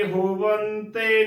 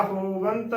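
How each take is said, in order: First: ਹੋਵੰਤੇ ending in a voiced "te"; ਹੋਵੰਤੇ as "ho-van-tay"; added final vowel. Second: ਹੋਵੰਤ closing straight on the t; ਹੋਵੰਤ as "ho-vant"; no final vowel. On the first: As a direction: add an e after the t of ਹੋਵੰਤੇ. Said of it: "ਤੱਤੇ ਨੂੰ ਸਿਹਾਰੀ ਨਹੀਂ ਬੋਲਣੀ". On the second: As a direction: end ਹੋਵੰਤ on nasal n and t. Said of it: "ਕਰਨਾ ਹੈ". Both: Shown as a demonstration.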